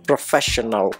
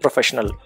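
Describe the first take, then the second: First: The stress is on the second syllable. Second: The stress is on the first syllable. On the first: The speaker calls it right. "The stress is on the second syllable, second vowel sound" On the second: The speaker calls it wrong. "Here the stress was on the first syllable"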